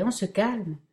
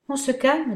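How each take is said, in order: First: "on" stressed, the rest falling, gently amused; mild chuckling tease, stress "on"; softer teasing. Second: High, louder laughing tease on "calme"; amused, stretch "calme" up and loud; teasing laugh. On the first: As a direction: lean on "on" in "on se calme" and let it fall. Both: Acted. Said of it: "se mit à rire Michael".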